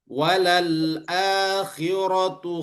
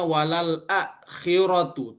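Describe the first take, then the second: First: The vowel after the glottal stop is held two beats. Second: The vowel after the glottal stop is short. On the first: The speaker calls it right. "Yang benar adalah ... Dipanjangkan sebanyak dua harokat" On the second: The speaker calls it wrong. "seolah-olah nanti orang membacanya walal akhiratu, tapi salah"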